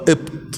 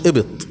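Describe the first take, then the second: First: The b has no vowel after it. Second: A short i vowel follows the b. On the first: The speaker calls it right. "هو إبط" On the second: The speaker calls it wrong. "في ناس بتقول إبط بكسر الباء، لا هو مش إبط"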